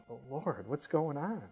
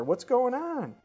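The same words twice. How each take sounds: First: Puzzled plea to God, held back; mild questioning plea. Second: High, loud frustrated question; exasperated outcry. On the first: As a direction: ask it in mild, contained bewilderment. Acts out his complaint to God. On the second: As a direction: cry out in acted exasperation. Complaint to God reaches its peak. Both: Acted.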